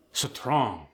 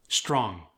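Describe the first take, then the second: First: "Strong" as suh-trong; Khmer-style "Strong", cluster split by a vowel; inserted vowel. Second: Said in the usual way. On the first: Shown as a demonstration. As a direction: add a vowel after the S in "Strong". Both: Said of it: "introduced in between two consonants".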